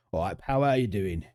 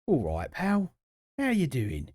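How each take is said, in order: First: London geezer greeting; matey Cockney geezer accent. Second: Higher-pitched London geezer accent; exaggerated Cockney geezer greeting. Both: Shown as a demonstration. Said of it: "In a geezer accent".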